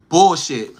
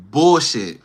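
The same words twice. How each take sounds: The two takes are said the same way.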